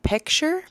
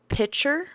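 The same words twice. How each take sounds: First: It is said with the k sound, like picture. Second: It is said without the k sound, like pitcher. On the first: The speaker calls it right. "No, you're taking a picture" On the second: The speaker calls it wrong. "When people say picture instead of picture"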